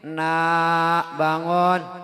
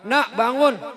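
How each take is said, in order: First: It is said warmly, with a smile. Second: It is said angrily, scolding.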